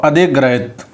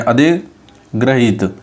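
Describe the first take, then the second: First: अधिग्रहित with a short last vowel; wrong pronunciation. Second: अधिग्रहित drawn out slowly with a long "heet"; correct pronunciation. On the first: Teacher reads the faulty form, short final vowel. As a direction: keep the "hit" of अधिग्रहित short. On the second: Teacher models it for students, slow long ee. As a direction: slowly stretch the last vowel of अधिग्रहित. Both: Shown as a demonstration. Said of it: "ऐसे बोलते हैं".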